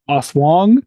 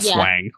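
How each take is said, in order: First: The first syllable sounds like 'oss'. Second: The first syllable sounds like 'ass'. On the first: This is how the name is really said. "I think it's actually pronounced Oswong" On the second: This is how the name is spelled. "but it's spelled like asswang"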